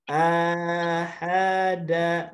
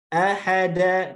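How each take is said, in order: First: The syllables are drawn out too long. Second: Each syllable is short and evenly timed. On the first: The speaker calls it wrong. "nah itu kepanjangan" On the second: The speaker calls it right.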